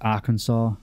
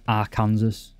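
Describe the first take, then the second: First: The word ends with a 'saw' sound. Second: The word ends like the word 'Kansas'. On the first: The speaker calls it right. "but this is Arkansas" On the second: The speaker calls it wrong. "Americans would pronounce, pronounce that Kansas"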